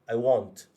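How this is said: The vowel in want is rounded, like 'o'. "di U K, British English, mereka menyebut want... Bunyi macam ada O sikit. Muncung sikit"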